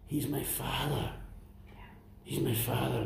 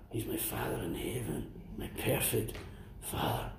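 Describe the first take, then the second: First: Said in the usual way. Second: Whispered. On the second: Real, not acted. Intimate confession of faith.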